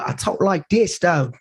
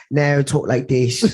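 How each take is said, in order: First: Put-on higher-pitched American TV-role accent; American accent impression. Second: Put-on slow, drawn-out British accent; British accent impression. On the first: Guest mimicking the actor in his Snowfall role, American accent. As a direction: switch lightly into an American accent. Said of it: "You know, in Snowfall". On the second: Podcast guest mimicking the actor off screen, British accent. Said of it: "Oh, it's Franklin Saint".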